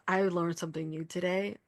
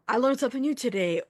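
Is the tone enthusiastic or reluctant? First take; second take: reluctant; enthusiastic. First: It is said flatly, with low, grudging energy. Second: It is said with bright, high energy. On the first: The speaker did not want to learn this lesson. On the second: The speaker is glad to have learned something.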